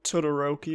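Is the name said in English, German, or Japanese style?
English. Said with an English-style pronunciation. This is how the English dub says it. The speaker calls it wrong. "It's not Todoroki"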